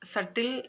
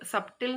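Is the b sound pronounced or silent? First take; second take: silent; pronounced. First: The b sound is silent. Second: The b sound is pronounced. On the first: The speaker calls it right. "ഇവിടെ ബി silent ആണ്" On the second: The speaker calls it wrong. "സബ്റ്റിൽ എന്ന് നമ്മൾ പറയില്ല"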